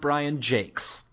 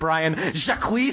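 First: The surname sounds like 'Jakes', with a long vowel. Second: The surname sounds like 'Jack', with a short vowel. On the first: This is the pronunciation a reference source gives. "according to Wikipedia, it's pronounced Brian Jakes" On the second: This is how the speaker habitually says it. "I always pronounce it Brian Jacques"

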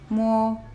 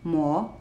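First: The pitch stays high and level. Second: The pitch starts lower and rises. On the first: "the first tone is a high tone, and it's leveled, it's straight" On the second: "starts a little bit lower than the first tone and goes up, rising"

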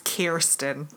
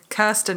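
First: The name is said with an American accent. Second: The name is said with a British accent. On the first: The speaker calls it wrong. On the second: The speaker calls it right.

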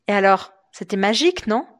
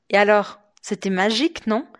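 No difference in how they are said.

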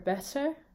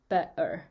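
First: The middle consonant is a t sound. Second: The middle consonant is a glottal stop. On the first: "instead of saying better or better" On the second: "I would say better"

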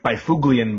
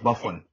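First: The name is said the way it is spelled. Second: The name is said unlike its spelling. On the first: This is how the written name looks. The speaker calls it wrong. "his last name looks like Byfuglien" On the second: This is how the name is really said. The speaker calls it right. "but it's pronounced Byfuglien"

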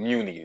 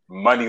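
First: The name starts with a 'mew' sound. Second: The name starts with a 'muh' sound. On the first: The speaker calls it wrong. "I was pronouncing Muni" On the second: The speaker calls it right. "It was Money Long"

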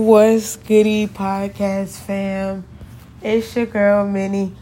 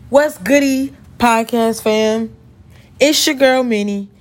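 First: The greeting is flat and low in energy. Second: The greeting is lively and high in energy. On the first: The speaker calls it wrong. "That sounded so fake and dry" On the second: The speaker calls it right. "We're gonna run that back real quick"

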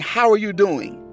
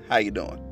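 First: The greeting sounds warm, joyful and concerned. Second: The greeting sounds flat, routine and automatic. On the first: The asker really cares how the other person is. The speaker calls it right. "One obviously displays a joyful emotion, some sort of compassion or concern" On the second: The question is asked only out of habit. The speaker calls it wrong. "you've just been trained to ask somebody how you doing"

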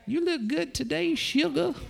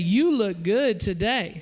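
First: It is said in an old grandma voice. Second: It is said in his normal voice.

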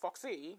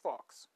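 First: The name ends with an extra 'ee' syllable. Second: The name is one syllable with no final vowel. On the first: The speaker calls it wrong. "I don't think it's Foxy" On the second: The speaker calls it right. "I think it's Fox"

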